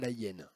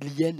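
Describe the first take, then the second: First: The article keeps its vowel before the noun. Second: The article's vowel is dropped and joined on. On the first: The speaker calls it wrong. "et pas la hyène" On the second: The speaker calls it right. "on dit l'hyène"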